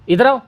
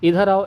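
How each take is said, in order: First: It is said in a harsh, scolding tone. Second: It is said in a gentle, respectful tone. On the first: The speaker is treating the listener without respect. "इज्जत नहीं है, मतलब कि ऐसे डांट करके बोल रहा है" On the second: The speaker is treating the listener with respect. "इज्जत है"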